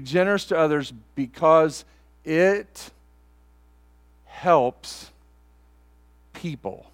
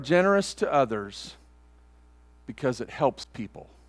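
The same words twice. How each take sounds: First: It is said even more slowly. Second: It is said slowly. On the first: "I'll go slower" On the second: "I'm going to say it slowly"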